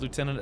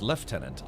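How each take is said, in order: First: The word is said the American way. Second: The word is said the British way.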